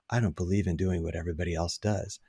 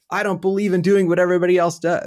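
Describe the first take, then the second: First: It is said in a calm, even voice. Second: It is said with forceful, emphatic energy. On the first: "He says" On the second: "he doesn't even say it that way"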